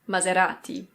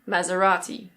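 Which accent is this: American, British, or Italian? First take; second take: Italian; British. First: It is said with an Italian pronunciation. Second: It is said with a British pronunciation. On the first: "In Italian, this is Maserati" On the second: "In British English, people say Maserati"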